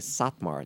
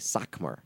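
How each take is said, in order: First: The middle consonant is a t sound. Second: The middle consonant is a k sound. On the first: This is the common form of the name. "the real hardcore Satmar don't say Satmar" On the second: This form avoids saying 'saint'. "They say Sakmar because they don't want to say saint"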